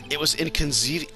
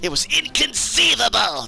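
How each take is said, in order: First: It is said in the speaker's ordinary voice. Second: It is said in a put-on impression voice.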